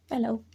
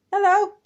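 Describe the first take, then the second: First: Said in the usual way. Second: High excited hello to the cat; cat greeting voice. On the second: Real, not acted. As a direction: sing out hello to the pet.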